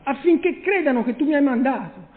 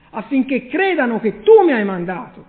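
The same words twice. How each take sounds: First: Said in the usual way. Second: "tu" stressed and louder with a rise. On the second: Shown as a demonstration. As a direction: lean on "tu" as the one who sent. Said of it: "ma tu mi hai mandato". (accento su "tu", più forte e ascendente)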